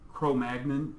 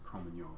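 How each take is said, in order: First: It is pronounced the English way. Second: It is pronounced the French way. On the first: The speaker calls it wrong. "Cro-Magnon is incorrect because it's French" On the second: The speaker calls it right. "It's Cro-Magnon, so you have to make sure that's correct"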